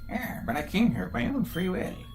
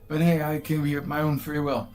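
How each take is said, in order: First: It is said in a put-on character voice. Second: It is said in a plain voice.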